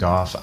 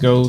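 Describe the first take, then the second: First: The name ends with an f sound. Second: The name ends without an f sound. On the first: "I choose Goff because of the way it's spelled" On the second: "Some people call him"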